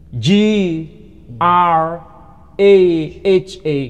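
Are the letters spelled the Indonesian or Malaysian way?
Malaysian. The letters are spelled out the Malaysian way. "Kalau saudara kita di Malaysia tidak menyebut uh, H tapi menyebut H"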